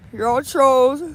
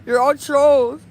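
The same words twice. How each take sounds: The two takes are said the same way.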